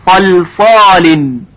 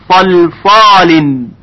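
Both takes have the same delivery.

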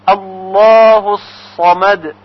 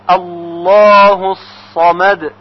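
The two takes are said the same way.

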